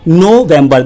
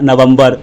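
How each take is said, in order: First: The first syllable is said as 'no'. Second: The first syllable is said as 'nuh'. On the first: The speaker calls it right. "एन ओ नो नोवेम्बर" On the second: The speaker calls it wrong. "आप direct नवंबर बोल रहे हैं, ये wrong number है"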